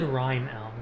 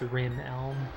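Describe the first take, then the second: First: The first syllable rhymes with 'time'. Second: The first syllable rhymes with 'him'. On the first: This is how the speaker said it as a child. The speaker calls it wrong. "I always said Rime Elm growing up" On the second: This is what the speaker believes is correct. The speaker calls it right. "I'm pretty sure it's Rim Elm"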